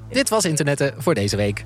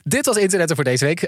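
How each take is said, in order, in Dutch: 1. De zin wordt langzamer uitgesproken. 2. De zin wordt snel uitgesproken. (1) "we gaan hem nog een keer doen, langzamer" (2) "ik praat heel snel nu"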